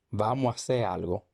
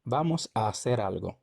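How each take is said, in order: First: Casual Dominican "Vamos a hacer algo"; Dominican reduction. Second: Said in the usual way. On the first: Shown as a demonstration. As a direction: say "Vamos a hacer algo" as "vamoa ser algo", dropping the S and merging the two As. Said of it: "elidimos la S". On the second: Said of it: "se convierte en hacer".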